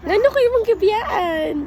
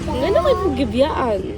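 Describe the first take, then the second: First: The line is said in a supportive tone. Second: The line is said in a sarcastic tone. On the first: "first kay supportive, supportive"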